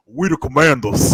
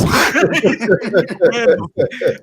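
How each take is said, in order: First: Put-on louder, heavy country Louisiana accent; Doug Williams country accent. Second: Put-on very slow, higher and louder, laughing through a thick country Louisiana accent; Doug Williams accent, laughing. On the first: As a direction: imitate a thick deep-country Louisiana accent. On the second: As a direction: stretch it out in a hammed-up Louisiana country accent while cracking up. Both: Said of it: "do the Doug Williams commander's voice".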